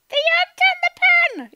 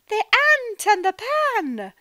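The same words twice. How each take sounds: First: It is said in a tiny ant voice. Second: It is said in a happy voice.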